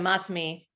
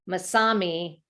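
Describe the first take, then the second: First: The name has its original Japanese emphasis. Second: The name has an Americanized emphasis. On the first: The speaker calls it right. "instead of Masami" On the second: The speaker calls it wrong. "Americanize it and put the emphasis on the Masami"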